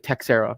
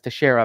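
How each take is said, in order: First: The name is said with English-style pronunciation. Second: The name is said with Portuguese-style pronunciation. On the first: The speaker calls it wrong. "A lot of people say Texera. That just sounds cringe" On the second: The speaker calls it right. "that's the Portuguese way of pronouncing it"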